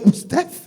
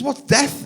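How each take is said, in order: First: "What's death?" much higher and louder, rising in disbelief; stunned echo. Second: A light hint of a small child asking, higher; toddler's question. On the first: Retold or imitated. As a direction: echo it back, floored by the question. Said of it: "It's like". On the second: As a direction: ask it simply like a curious three-year-old. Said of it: "He says".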